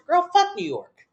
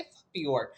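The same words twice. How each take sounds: First: High, drawn-out mock outburst; acted exasperated comeback. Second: Low-key, softer retort; muted comeback. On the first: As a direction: fire back in a high, exasperated voice. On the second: Acted. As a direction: say it softly, as if held back. Repeats comeback she held back.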